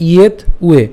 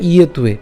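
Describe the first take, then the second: First: "ইয়েত উয়ে" in two separate parts; split pronunciation. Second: "ইয়েত উয়ে" run together as ye-tuye; joined pronunciation. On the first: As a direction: stop on the t of ইয়েত before উয়ে. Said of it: "একটু ভেঙে দিয়েছি". ("ইয়েত উয়ে" ভেঙে উচ্চারণ) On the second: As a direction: link the t of ইয়েত onto উয়ে. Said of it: "একসাথে করলে". ("ইয়েত উয়ে" একসাথে জুড়ে উচ্চারণ) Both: Shown as a demonstration.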